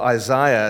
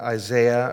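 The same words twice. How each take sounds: First: The name is said the British elocution way. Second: The name is said in a plain American way.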